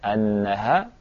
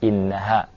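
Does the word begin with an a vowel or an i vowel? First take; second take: a vowel; i vowel. First: The word begins with an a vowel. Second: The word begins with an i vowel. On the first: "Boleh dibaca annaha" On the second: "boleh dibaca innaha; bacaan yang hamzahnya di kasrah"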